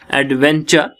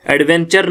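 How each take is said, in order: First: "एडवेंचर" ending in open "-chuh"; silent final r. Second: "एडवेंचर" with the final r sounded; incorrect final r. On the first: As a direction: drop the r at the end of "एडवेंचर". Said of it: "जब हम पढ़ते हैं". ("एडवेंचर" के अंत में र के बिना) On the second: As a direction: end "एडवेंचर" on an audible "-char". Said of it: "एडवेंचर नहीं है". ("एडवेंचर" के अंत में र बोलकर) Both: Shown as a demonstration.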